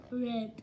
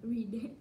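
First: "Read" said with a short e; "Read" pronounced like the colour red. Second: "Read" said with a long ee; "Read" pronounced like the plant reed. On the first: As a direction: say "Read" to rhyme with bed. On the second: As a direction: say "Read" to rhyme with need. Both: Shown as a demonstration. Tries two pronunciations of read.

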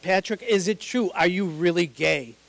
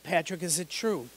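First: Insistent repeat. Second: Said in the usual way. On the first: Retold or imitated. Mom pressing her son, louder and insistent. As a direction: push harder the second time.

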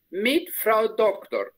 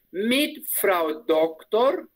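First: "mit Frau Doktor" despacio, bajando al final; lento y cerrado. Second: "Mit Frau Doktor" muy despacio, subiendo al final; modelo lento. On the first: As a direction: cierra el modelo. (despacio y bajando al final) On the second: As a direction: lo dicta para que lo repitan. (despacio y subiendo al final) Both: Shown as a demonstration. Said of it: "repite la alumna".

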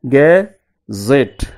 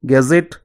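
First: "gazette" drawn out as ga - zette; split into syllables. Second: Said in the usual way. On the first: Shown as a demonstration. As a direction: pause between the two syllables of "gazette". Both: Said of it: "divide the word into syllables".

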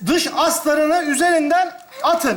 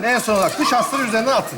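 First: Slow, deliberate read-out of each step; reading instructions aloud. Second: Fast, offhand relay of the step; quick repeated instruction. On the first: Man reading tent manual to his friend, slow deliberate read-out. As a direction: read it out slowly, word by word. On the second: Man passing the manual's step on to his friend, quick and offhand. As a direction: rattle the step off to a helper. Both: Acted. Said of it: "ben okuyacağım".

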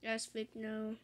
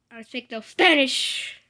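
First: Said in the usual way. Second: Loud slow joke. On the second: Real, not acted. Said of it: "I think she's speaking Spanish".

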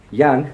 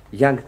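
Both takes have the same delivery.

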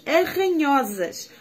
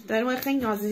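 First: Arranhosas stretched slowly, each syllable drawn out; drawn-out quoted word. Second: Said in the usual way. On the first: Retold or imitated. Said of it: "ela vai a dizer que eu sou uma chita". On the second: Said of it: "Ou seja, que é umas unhas que arranham muito".

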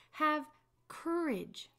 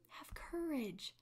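First: High, loud call across the water; raised, commanding call. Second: Slow, soft whisper; a slow breathy reassurance whispered close. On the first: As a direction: call it firmly over the storm. Jesus calls out over waves. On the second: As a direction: hush it tenderly, slowly. Jesus repeats softly after calling. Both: Acted.

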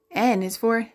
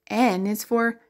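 Both takes have the same delivery.

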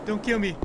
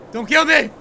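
First: Said in the usual way. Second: Louder, higher plea for life; raised-voice nervous begging; alarmed plea. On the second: Real, not acted. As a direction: cry out to be spared. Repeats plea louder to game.

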